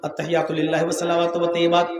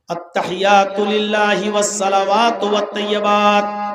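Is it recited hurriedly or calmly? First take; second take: hurriedly; calmly. First: It is recited hurriedly. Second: It is recited slowly and calmly.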